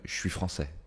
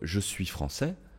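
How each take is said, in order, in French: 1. « Je suis » commence par un son 'sh'. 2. Le « je » commence par un son 'zh' voisé.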